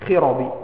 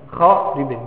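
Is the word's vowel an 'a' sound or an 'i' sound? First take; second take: i sound; a sound. First: The word is voweled with an 'i' sound. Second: The word is voweled with an 'a' sound. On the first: "ضبطوها بالكسر" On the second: "بالفتح"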